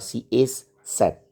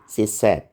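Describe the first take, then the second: First: The word 'is' is said in full. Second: The word 'is' is shortened onto 'she'. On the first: The speaker is angry. "Is itu tidak dibilang she is sad, itu kecuali dia marah" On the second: It is ordinary fast everyday speech. "Pasti disingkat menjadi"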